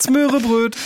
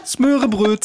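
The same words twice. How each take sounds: First: Even higher sing-song Smörebröt; Smörebröt squeaked in mock Swedish. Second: Mock Swedish. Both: Mocking Swedish words.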